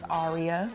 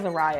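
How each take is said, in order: First: The name is said as AH-ree-ah. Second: The name is said as ah-RAY-ah. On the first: The speaker calls it right. "her name is Aria" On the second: The speaker calls it wrong. "she like mispronounces it... she says Araya"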